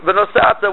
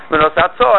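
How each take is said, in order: First: "venosata" with the accent on "sa", higher; stress before the last syllable. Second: "Venosato" with the final "to" stressed; stress on last syllable. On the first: Teacher showing the wrong past reading, next-to-last syllable stressed. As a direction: stress "sa" in "venosata", leaving "ta" light. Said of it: "That's two different things". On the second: Teacher citing you should place it, last syllable stressed. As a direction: land the accent on the end of "Venosato". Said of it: "you stress the last syllable". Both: Shown as a demonstration.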